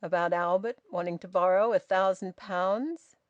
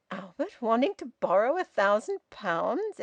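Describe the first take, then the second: First: Said in the usual way. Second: Astonished echo of the question, rising; astounded. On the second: Acted. Son echoing his father's news about Albert, astounded. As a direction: repeat it back in disbelief. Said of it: "Edwin repeated, astounded".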